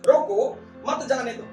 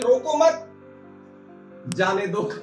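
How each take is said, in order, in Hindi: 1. पॉज 'roko' के ठीक बाद है। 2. पॉज 'mat' के ठीक बाद है। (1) "एक पॉज हमने लगाया, कॉमा लगा दिया" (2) "एक पॉज चेंज करने से"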